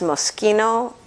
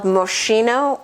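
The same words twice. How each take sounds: First: The name is said the Italian way. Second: The name is read the way it looks. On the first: The speaker calls it right. "it's pronounced Moschino" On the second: The speaker calls it wrong. "spelled Moschino"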